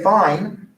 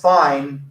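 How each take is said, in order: First: It sounds content and agreeable. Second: It sounds annoyed and displeased.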